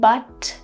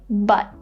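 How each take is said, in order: First: The final T is released with air. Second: The final T is held with no air. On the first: "see, the air comes out" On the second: "we just say but. You hold your tongue"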